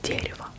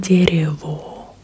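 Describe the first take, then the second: First: The final vowel is reduced toward an e. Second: The final vowel is a full, clear o. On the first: The speaker calls it right. "if O in Russian is not stressed, then it sounds more like an E" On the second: The speaker calls it wrong. "it's not дерево"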